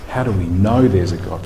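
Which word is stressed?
know. The stress falls on the word "know". It asks how anything can be known at all. "how do we know anything?"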